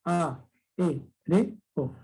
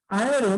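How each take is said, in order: First: "A, E, R, O" as four separate syllables, a, é, re, o; a clear pause after each syllable of "A, E, R, O"; split into syllables. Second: Said in the usual way. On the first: Shown as a demonstration. ("A, E, R, O" silabeado: a, é, re, o) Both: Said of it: "cuatro sílabas".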